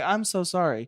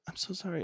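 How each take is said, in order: First: It is said strongly, from the chest. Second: It is said weakly, with a small voice.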